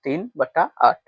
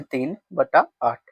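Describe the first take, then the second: First: Said in the usual way. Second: तीन बटा आठ said very slowly, with बटा stretched; slow model reading. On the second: Shown as a demonstration. Teacher showing pupils how the fraction is read, slowly. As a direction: draw out तीन बटा आठ word by word. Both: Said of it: "तो हम इसको ऐसे पढ़ते हैं".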